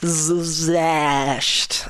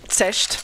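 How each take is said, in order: First: The name is said with an English pronunciation. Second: The name is said with a German pronunciation. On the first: "in English, say Zecht" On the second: "In German, it would be Zecht"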